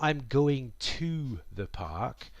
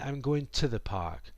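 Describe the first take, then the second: First: The word to is said fully. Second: The word to shrinks to a t. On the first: The speaker calls it wrong. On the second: The speaker calls it right. "more like ... T instead of to"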